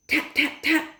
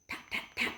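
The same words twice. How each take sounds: First: Higher, crisp tap tap tap; crisp voiced taps. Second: Soft unvoiced tap tap tap; whispered taps. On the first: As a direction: mimic a bottle knocking. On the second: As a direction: whisper the taps like quiet knocks. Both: A narrator's reading. Knocking sounds voiced.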